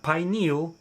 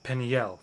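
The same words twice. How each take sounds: First: "pineal" as pie-NEEL, lifted as the rejected form; wrong pronunciation, pineal. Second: "Peniel" as pen-ee-EL, settling down at the end; correct pronunciation of Peniel. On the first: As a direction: say "pineal" with long I, ending in NEEL. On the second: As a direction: say "Peniel" with short PEN and final EL. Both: Shown as a demonstration. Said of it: "Not pineal".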